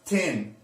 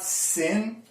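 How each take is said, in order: First: It begins with a hard t sound. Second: It begins with a hissing s sound. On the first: "it's not tin" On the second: "it's not sin"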